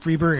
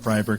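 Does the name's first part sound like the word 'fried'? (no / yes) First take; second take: no; yes. First: The first part does not sound like 'fried'. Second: The first part sounds like the word 'fried'. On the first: The speaker calls it right. "I got it right this time" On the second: The speaker calls it wrong. "because it's F R I E D, and I'm a, a very literal guy"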